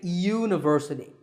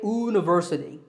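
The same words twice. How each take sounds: First: The word begins with a y sound. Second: The word begins with a plain vowel sound. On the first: The speaker calls it right. "we say university. The y sound is a consonant sound" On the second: The speaker calls it wrong. "We don't say university"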